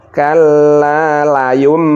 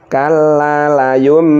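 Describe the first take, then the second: The two takes are said the same way.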